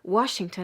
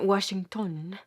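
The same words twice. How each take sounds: First: The stress is on the first syllable. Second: The stress is on the last syllable. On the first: This is the usual English way of saying it. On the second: This is how it would sound accented the Persian way.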